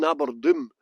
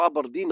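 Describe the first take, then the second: First: Aberdoom said with a long gloomy oo, like doom; jokey nickname Aberdoom. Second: Said in the usual way. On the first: Shown as a demonstration. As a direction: stretch Aberdoom so the oo sounds like doom. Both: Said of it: "we call Aberdeen Aberdoom".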